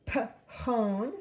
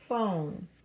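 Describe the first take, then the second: First: It begins with separate p and h sounds. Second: It begins with a single f sound. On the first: The speaker calls it wrong. "we don't say p-hone" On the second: The speaker calls it right.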